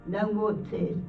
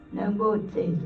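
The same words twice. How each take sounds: The two takes are said the same way.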